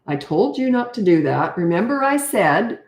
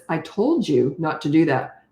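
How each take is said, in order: First: Condescending parental scolding. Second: Slow, measured reprimand; slow stern telling-off at normal volume. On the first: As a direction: lecture as if talking down to a child. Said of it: "all that condescending stuff". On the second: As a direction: tell them off sternly without yelling. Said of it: "talk sternly like this". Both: Shown as a demonstration.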